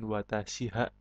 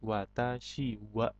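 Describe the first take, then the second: First: The particle is pronounced with an h sound. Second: The particle is pronounced with a w sound. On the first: The speaker calls it wrong. "bukan watashi ha" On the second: The speaker calls it right. "tetapi watashi wa"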